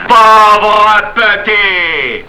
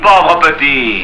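First: Very slow, high, drawn-out taunt; escalated taunt. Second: Restrained taunt. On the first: Panisse nose to nose with Marius, drawn-out furious taunt. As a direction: stretch each vowel out menacingly. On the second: Panisse nose to nose with Marius, restrained taunt. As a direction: draw it out with contained menace. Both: Acted.

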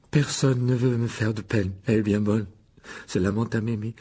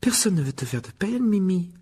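First: Bitter mocking echo. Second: High-pitched, earnest reassurance; reassuring. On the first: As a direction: throw the words back, sulking and scornful. Wounded ghost throws the words back. (écho amer et sarcastique, traînant) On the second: Acted. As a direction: assure her gently in a higher voice. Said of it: "assura Hermione". (rassurant, d'une voix plus aiguë)

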